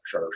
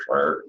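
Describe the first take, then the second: First: Shar with a falling tone; downward tone on shar. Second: Shar rising from low; upward tone on shar. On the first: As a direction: let the pitch drop on shar. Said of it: "than you do a downward". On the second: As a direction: start shar low and sweep it up. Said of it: "do an upward tone pattern". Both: Shown as a demonstration.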